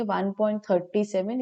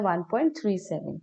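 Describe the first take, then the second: First: वन पॉइंट थर्टी सेवन, reading the digits after the point as one number, थर्टी सेवन; teacher shows the mistake students make: वन पॉइंट थर्टी सेवन; wrong reading shown. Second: वन पॉइंट थ्री सेवन, each digit after the point read separately, थ्री then सेवन; teacher demonstrates the correct reading: वन पॉइंट थ्री सेवन; correct reading shown. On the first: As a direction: demonstrate the incorrect way, थर्टी सेवन as thirty-seven. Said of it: "ऐसे नहीं पढ़ेंगे". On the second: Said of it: "ऐसे read किया जाता है इसको". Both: Shown as a demonstration.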